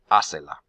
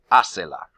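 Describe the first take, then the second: First: "Hacela" said as HÁ-ce-la, first syllable hit hard; stress on first syllable. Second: Said in the usual way. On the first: Shown as a demonstration. Teacher models the accent for students, stress on HÁ. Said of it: "count three syllables in the back to find my accent". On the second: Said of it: "the original command was only one syllable".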